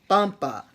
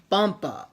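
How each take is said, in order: Both takes have the same delivery.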